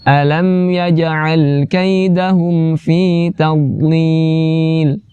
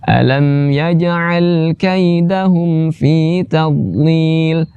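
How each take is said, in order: The two takes are said the same way.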